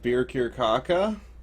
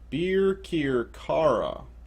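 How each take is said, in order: First: The name ends with a 'caca' sound. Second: The name ends with a 'kara' sound. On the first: The speaker calls it wrong. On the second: The speaker calls it right.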